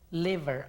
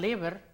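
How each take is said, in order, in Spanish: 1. La v se hace con el labio y los dientes. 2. La v se hace con los dos labios. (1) "sino que liver" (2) "no digan liver"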